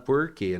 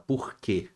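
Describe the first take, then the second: First: The R is said the caipira Uberlândia way. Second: The R is said the refined Belo Horizonte way.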